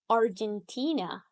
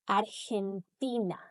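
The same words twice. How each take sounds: First: It is said with English pronunciation. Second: It is said with Spanish pronunciation.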